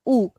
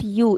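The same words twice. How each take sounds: First: "U" said as a pure "oo"; Portuguese U. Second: "U" said as "you"; English letter U. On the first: Teacher correcting a student, U as plain "oo". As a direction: say "U" as "oo", with no y glide. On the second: Teacher showing the student's mistake, U as "you". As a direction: say "U" with a y glide, "yoo". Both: Shown as a demonstration. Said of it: "it is not U".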